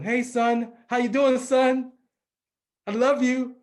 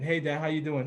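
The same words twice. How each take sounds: First: Higher, louder voice of a greeting father; imitated happy dad. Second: Said in the usual way. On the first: Dad answering his son's phone call, eagerly imitated. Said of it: "And I would call him". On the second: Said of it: "like nothing".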